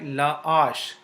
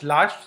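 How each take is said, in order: First: The article and noun are said as separate syllables. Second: The article and noun are joined into one syllable. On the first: The speaker calls it right. "la ash it remain uh, separated" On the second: The speaker calls it wrong. "you cannot link it like"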